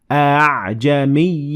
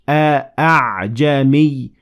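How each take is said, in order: First: The long vowel is pronounced lighter and weaker. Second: The long vowel is pronounced full and heavy. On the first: The speaker calls it right. "less heavily pronounced" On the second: The speaker calls it wrong. "instead of saying"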